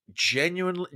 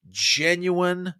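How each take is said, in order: First: Said in the usual way. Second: Genuine lifted high and drawn out on its own; emphasis on genuine. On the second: Shown as a demonstration. Host correcting himself to stress genuine, word set apart and lifted high. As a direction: lean hard on genuine, a beat apart. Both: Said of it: "with emphasis on the word genuine".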